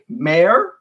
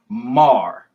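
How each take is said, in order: First: The vowel rhymes with air. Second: The vowel rhymes with car. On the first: The speaker calls it wrong. "Would you say mayor?" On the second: The speaker calls it right. "Or would you say mar?"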